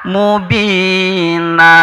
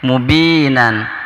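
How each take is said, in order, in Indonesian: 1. Kata ini berakhir dengan a panjang, tanpa n. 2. Kata ini berakhir dengan a pendek dan n.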